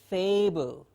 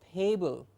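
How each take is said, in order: First: The word begins with a clear f sound. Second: The word begins with a p sound. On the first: The speaker calls it right. "It is a clear f" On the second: The speaker calls it wrong. "mispronouncing this sound"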